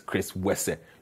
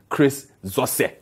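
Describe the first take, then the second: First: The surname begins with a W sound. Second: The surname begins with a Z sound. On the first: The speaker calls it right. "Like X is pronounced W. So I think it's Chris Wese" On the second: The speaker calls it wrong. "I hope I pronounced the name right"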